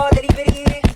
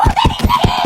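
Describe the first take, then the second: First: Said in the usual way. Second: Delivery shrieked very high, drawn out and distorted; squealed delivery call. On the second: Acted.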